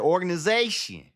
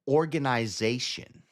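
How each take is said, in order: First: The syllables are said quickly and casually. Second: Every syllable is carefully and heavily articulated. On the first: "I just say organization" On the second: "Extra enunciation on your words"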